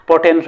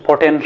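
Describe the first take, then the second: The two takes are said the same way.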